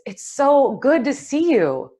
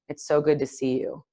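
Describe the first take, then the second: First: It is said in a warm, genuine tone. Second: It is said in a flat, unenthusiastic tone. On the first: The speaker is truly glad. The speaker calls it right. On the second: The speaker is not really glad. The speaker calls it wrong. "cross my arms and go"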